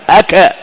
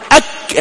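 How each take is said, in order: First: The final k is released with an echoing bounce. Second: The final k is closed without any echoing bounce. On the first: The speaker calls it wrong. "لماذا لم تقلقل الكاف ... لماذا ما نقول أكا أكا؟" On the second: The speaker calls it right. "نقول أك"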